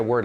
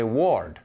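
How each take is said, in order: First: Said in the usual way. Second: "ward" as a non-native reading of word, rhyming with lord; foreign mispronunciation. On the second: Shown as a demonstration. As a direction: say "ward" with a spelled-out O vowel. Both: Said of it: "they'll say ward".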